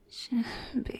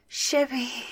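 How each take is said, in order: First: The name is moaned with pleasure. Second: The name is shouted eagerly.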